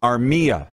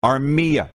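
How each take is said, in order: Both takes have the same delivery.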